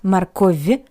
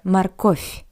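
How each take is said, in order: First: The final consonant is a voiced V sound. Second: The final consonant is a voiceless F sound. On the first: The speaker calls it wrong. "Not морковь" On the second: The speaker calls it right. "sounds like a paired voiceless consonant F"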